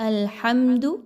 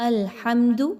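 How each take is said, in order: Both takes have the same delivery.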